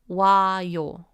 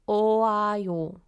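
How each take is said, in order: First: The o and a vowels merge into wa. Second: The o and a vowels are said separately. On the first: "the sounds get mushed together to make 와요" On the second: "Originally, this was 오아요"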